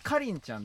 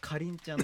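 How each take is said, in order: First: Its pitch pattern differs from the word kirin. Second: Its pitch pattern matches the word kirin. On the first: The speaker calls it wrong. "かりんちゃんではないですね" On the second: The speaker calls it right. "みりんとかキリンの発音のかりんちゃんなんですよ"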